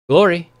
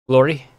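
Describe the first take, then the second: First: It is said more loudly than before. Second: It is said at a normal, quiet volume.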